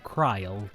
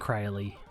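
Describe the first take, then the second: First: The name ends with a silent final vowel. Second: The name ends with a pronounced final vowel.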